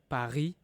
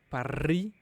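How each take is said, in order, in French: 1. Le R est un son doux dans la gorge. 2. Le R se roule long et fort. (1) "the most natural way is" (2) "this one is a bit too much"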